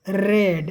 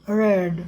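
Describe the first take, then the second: First: The r is trilled, with the tongue fluttering. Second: The r is smooth, with no tongue vibration. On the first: The speaker calls it wrong. "ऐसा फड़फड़ाएगा नहीं" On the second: The speaker calls it right. "एकदम बिल्कुल simply"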